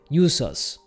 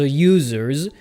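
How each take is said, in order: First: The word ends with a voiceless s sound. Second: The word ends with a voiced z sound. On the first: "we would end it with then an S" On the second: "typically end in the sound of Z"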